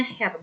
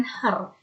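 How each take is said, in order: First: "Herr" with an open e and a breathy h; correct Herr. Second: "Herr" said the wrong way, like "hər"; the mispronounced "Herr". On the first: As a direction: say "Herr" like "her" as in German. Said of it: "dibacanya Herr". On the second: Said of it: "bukan Herr". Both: Shown as a demonstration.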